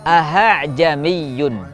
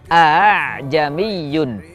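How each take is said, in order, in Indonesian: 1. Hamzah kedua diganti dengan h. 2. Hamzah kedua dilunakkan mendekati vokal. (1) "membaca hamzah kedua menjadi huruf ha" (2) "hamzah kedua dibaca antara hamzah dan alif"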